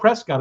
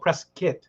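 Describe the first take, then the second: First: The last syllable sounds like cot. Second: The last syllable sounds like kit. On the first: The speaker calls it wrong. "it's not called Prescott" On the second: The speaker calls it right. "it's called Prescott ... kit and not cot"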